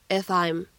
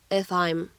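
The two takes are said the same way.

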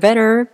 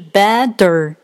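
First: The middle t is a brief light tap. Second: The middle t is a heavy, drawn-out d. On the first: The speaker calls it right. "蜻蜓在水中轻轻点那么一下就飞走了" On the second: The speaker calls it wrong. "被浊化的那么明显，停顿的如此耽误时间"

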